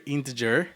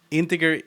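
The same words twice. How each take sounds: First: Integer with a soft j, inte-jer. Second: Integer with a hard g, inte-GER like get. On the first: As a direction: say integer with the j sound. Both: Shown as a demonstration. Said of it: "you alternate every time".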